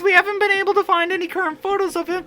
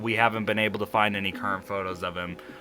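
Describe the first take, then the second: First: It is read in a put-on character voice. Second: It is read in the reader's normal voice.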